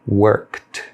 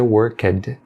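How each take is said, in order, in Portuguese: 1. A terminação é pronunciada com um som sutil de 't'. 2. A terminação é pronunciada como uma sílaba separada 'ed'. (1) "você deve pronunciá-lo com o som sutil de T" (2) "Você não pronuncia worked"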